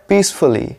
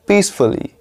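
No difference in how they are said.

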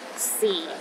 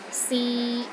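First: The pitch sits at the lowest point. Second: The pitch is steady in the middle range. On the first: "The fourth tone is the lowest tone" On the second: "in the middle of your range and it is steady"

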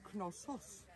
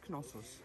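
First: The name is pronounced the Greek way. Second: The name is pronounced the English way. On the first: "In Greek, it is Knossos" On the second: "And in English, it's Knossos"

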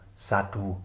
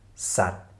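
First: The word ends with an extra vowel sound. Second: The word ends on a final t sound. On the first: The speaker calls it wrong. "und nicht etwa Satu" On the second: The speaker calls it right. "Wir lesen also Sat"

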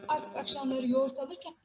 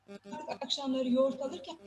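Both takes have the same delivery.

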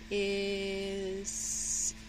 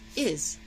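First: The word is drawn out slowly. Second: The word is said quickly. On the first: "say it slow" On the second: "say it fast"

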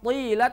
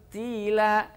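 First: The t is heavy, with the tongue raised. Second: The t is light, with the tongue flat. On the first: The speaker calls it wrong. "bukan tila" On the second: The speaker calls it right. "tapi tila"

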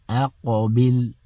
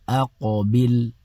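Both takes have the same delivery.

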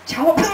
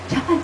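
First: It is said loudly and forcefully. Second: It is said softly and gently. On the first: The speaker sounds like they are quarreling. "是在吵架嘛？" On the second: The speaker is being polite. "轻声细语这样，很有礼貌"

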